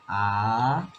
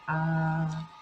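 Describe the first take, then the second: First: The pitch rises from lower to higher. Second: The pitch stays high and level. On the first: "from a smaller pitch to a higher pitch" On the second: "that's the first tone"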